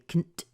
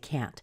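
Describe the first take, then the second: First: The vowel in can't is reduced and short. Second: The vowel in can't is full and clear. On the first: The speaker calls it wrong. "you never say can't" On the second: The speaker calls it right. "you will always say can't"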